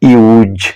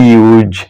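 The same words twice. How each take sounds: First: The word ends with a buzzing z sound. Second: The word ends with a buzzing z sound.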